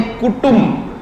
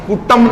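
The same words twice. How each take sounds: First: Higher, clear "tum" in कुटुंब; कुटुंब with u in both syllables; correct u vowel. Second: कुटुंब said as ku-tam; short a after t in कुटुंब; wrong second vowel. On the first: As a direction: say कुटुंब as ku-tumm. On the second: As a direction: say कुटुंब with "tam" instead of "tum". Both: Shown as a demonstration. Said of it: "कुटुंब नहीं".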